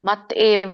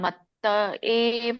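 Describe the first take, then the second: First: The t is short, with no vowel after it. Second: The t is doubled and followed by a vowel. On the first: The speaker calls it wrong. "ಮತ್ ಏವ ಅಲ್ಲ" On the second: The speaker calls it right. "ಮತ್ತ ಏವ ತೊಕೆತ್ತ ಒತ್ತಿದೆಯಲ್ಲ"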